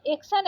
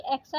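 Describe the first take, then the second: First: एक्शन with closed e; wrong vowel. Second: Said in the usual way. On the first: Shown as a demonstration. Teacher showing how not to write, एक्शन with plain e. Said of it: "एक्शन ऐसे नहीं". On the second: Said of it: "एक्शन ऐसे लिखते हैं".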